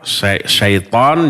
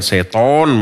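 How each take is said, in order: First: The vowel is said with unrounded lips. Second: The vowel is said with rounded, pouted lips. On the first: The speaker calls it right. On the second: The speaker calls it wrong.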